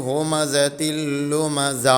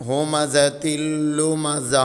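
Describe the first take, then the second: The two takes are said the same way.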